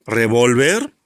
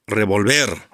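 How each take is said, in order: First: "Revólver" stressed re-VÓL-ver; stress on middle syllable. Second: "revolver" stressed re-vol-VER; stress on last syllable. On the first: Teacher contrasts two readings for pupils, "Revólver" stressed on VÓL. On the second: Teacher shows pupils the changed meaning, "revolver" stressed on VER. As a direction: land on the final VER of "revolver". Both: Shown as a demonstration. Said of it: "Es la famosa tilde optativa en palabras bitónicas".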